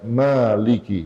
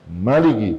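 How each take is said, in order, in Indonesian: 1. Vokal pertama dibaca panjang. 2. Vokal pertama dibaca pendek. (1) "dengan panjang" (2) "dengan pendek"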